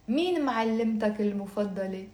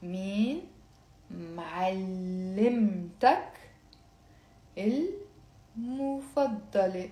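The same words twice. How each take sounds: First: Quick, natural speed; faster. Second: Slow, drawn-out syllables for learners. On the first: Teacher repeating the question at natural speed. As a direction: rattle it off at normal pace. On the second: Teacher reading it slowly for the class to repeat. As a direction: spell each word out slowly. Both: Shown as a demonstration. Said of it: "I'll say it very slowly and then faster".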